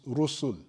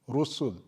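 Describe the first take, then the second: No difference in how they are said.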